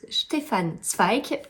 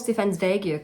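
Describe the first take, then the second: First: It is said with a German accent. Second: It is said the usual French way.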